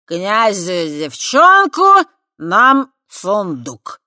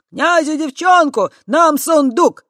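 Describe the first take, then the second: First: Put-on chanted, very slow, loud drunken slur; chanted, drawl the deal tipsily. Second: High, loud gleeful chanting; chanted, cheer the slogan brightly; gleeful crowd chant. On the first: Chanted, drunk Voytek proclaiming the deal, slurring. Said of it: "нетрезво вмешался Войтек". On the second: Chanted, the crowd joyfully repeating Voytek's words. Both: A narrator's reading.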